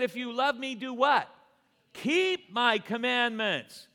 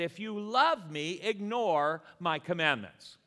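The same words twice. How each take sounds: First: Higher, with Keep slowed and pressed hard; the correct reading, Keep stressed high and slow; corrected verse, emphatic. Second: Slow mock-serious misreading of ignore; straight-faced trick misquote; deliberate misquote. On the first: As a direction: lean on Keep and draw it out slowly. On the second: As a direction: read the wrong verse calmly and slowly, as if it were true. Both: Shown as a demonstration. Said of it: "He didn't say that".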